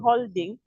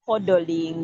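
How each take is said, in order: First: The word is said as holding. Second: The word is said as hodling. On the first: This is the real word for keeping something. The speaker calls it right. "instead of saying holding" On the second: This came from a failed pronunciation. The speaker calls it wrong. "he said hodling"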